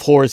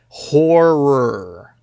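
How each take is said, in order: First: It is rushed into one short syllable. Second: It is said slowly with two clear syllables. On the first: The speaker calls it wrong. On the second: The speaker calls it right. "No, no, no, horror"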